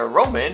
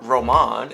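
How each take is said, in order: First: The name is pronounced the ordinary way. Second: The name is pronounced in an affected, fancy way.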